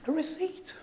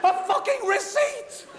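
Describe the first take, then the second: First: Much softer, laughing under breath; deflated aside. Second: Pitched way higher, slow, laughing disbelief; incredulous outburst. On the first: Comic repeating the punchline to the crowd, soft deflated chuckle. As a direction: let it drop quietly with a chuckle. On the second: Comic telling the crowd about the receipt, laughing disbelief. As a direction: stretch out fucking in laughing disbelief. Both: Real, not acted.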